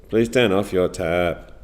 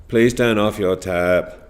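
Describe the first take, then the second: No difference in how they are said.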